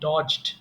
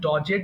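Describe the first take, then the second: First: The ending is joined without an extra syllable. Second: The ending is said as an extra syllable. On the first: The speaker calls it right. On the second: The speaker calls it wrong.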